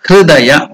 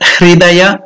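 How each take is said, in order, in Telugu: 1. 'hr' తర్వాత అచ్చు "i" మరియు "u" మధ్య ఉంటుంది. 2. 'hr' తర్వాత అచ్చు స్పష్టమైన "i". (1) "that is the pronunciation of Hridaya" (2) "Not even Hridaya"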